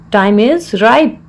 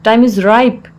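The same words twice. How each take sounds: First: Slow, word-by-word teaching delivery; slow repeat. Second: Said in the usual way. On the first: Shown as a demonstration. Teacher repeats the English phrase for learners, slowly.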